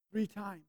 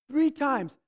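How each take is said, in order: First: Quiet first mention. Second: "Three times" said again louder, stress on "Three"; emphatic repeat. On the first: Preacher telling the congregation of Peter's denial, softly. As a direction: let "three times" fade out quietly, just stating it. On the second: Preacher repeating Peter's denial to the congregation, emphatic stress on "Three". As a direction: hit "Three" hard the second time, driving it home. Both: Shown as a demonstration.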